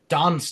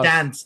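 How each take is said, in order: First: Dance is said with a British broad vowel. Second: Dance is said with an American flat vowel. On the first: This is how the singer says it. "she says dance, dance, dance" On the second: This is how the speaker would say it. "I'd say dance, dance, dance"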